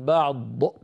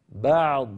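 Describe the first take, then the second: First: An extra vowel-like sound follows the final consonant. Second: The final consonant ends cleanly with no added vowel. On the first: The speaker calls it wrong. "لا يصح هذا الصوت الزائد في النهاية" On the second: The speaker calls it right. "ننطق ضادا من غير ذيول"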